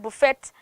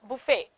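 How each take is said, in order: First: The final t is pronounced. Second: The final t is silent. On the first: The speaker calls it wrong. "we start saying buffet" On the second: The speaker calls it right. "This is how you pronounce it in English"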